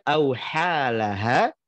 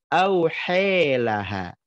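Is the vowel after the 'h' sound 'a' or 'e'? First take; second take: a; e. First: The vowel after 'h' is an open 'a'. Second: The vowel after 'h' leans toward 'e'. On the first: This is the reading of one transmission. "kalau dihafazkan auhalaha" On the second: This is the reading of another transmission. "dibaca auhe, imalah"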